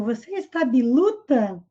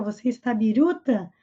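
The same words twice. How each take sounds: First: "biluta" with L in place of R. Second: "biruta" with a tapped R; correct R sound. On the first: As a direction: imitate the speech problem, "biluta" for biruta. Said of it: "esse problema de fala dele no português". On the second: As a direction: say "biruta" with its R, not an L. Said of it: "Com essa palavra aqui que contém R". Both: Shown as a demonstration.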